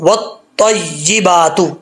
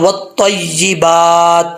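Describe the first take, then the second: First: The word ends with a short u vowel. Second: The word ends on a bare t consonant. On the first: The reading continues into the next word. "मिला के पढ़ेंगे तो तू" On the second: The reader stops after this word. "अगर यहाँ रुकेंगे तो वत्तय्यिबात"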